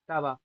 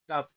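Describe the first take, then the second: First: The word ends in a vowel. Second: The word ends in a bare consonant. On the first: The speaker calls it right. "यहाँ लिखा है तवा" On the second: The speaker calls it wrong. "तब नहीं लिखा ... तो वकार हलंत हो जाता"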